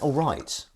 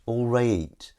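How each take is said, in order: First: Said in the usual way. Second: "All right" with the vowel of "rate"; Blackburn pronunciation. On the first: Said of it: "what's that? Is that all right?". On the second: Shown as a demonstration. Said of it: "that's the Blackburn word".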